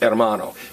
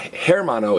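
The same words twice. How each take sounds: First: The word begins directly with the vowel sound. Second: The word begins with an audible h sound. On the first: The speaker calls it right. "it's hermano" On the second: The speaker calls it wrong. "it's not herma, hermano"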